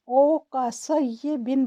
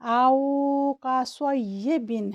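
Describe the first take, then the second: First: The opening vowel is cut short without lengthening. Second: The opening vowel is held long, about two counts. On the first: The speaker calls it wrong. "अगर पढ़ते हुए इसे ज़्यादा वक्त ना दें ... जो कि गलत है" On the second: The speaker calls it right. "इसको दो सेकंड का वक्त देकर पढ़ना चाहिए"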